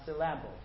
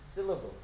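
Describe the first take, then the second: First: The stress is on a later syllable. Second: The stress is on the first syllable. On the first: The speaker calls it wrong. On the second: The speaker calls it right. "the stress is on the first syllable"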